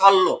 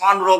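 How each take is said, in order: First: The middle is a long double L. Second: The middle is an N followed by R. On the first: The speaker calls it right. "লয় লয় যুক্ত উচ্চারণ করবো" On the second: The speaker calls it wrong. "সন রো বলবো না"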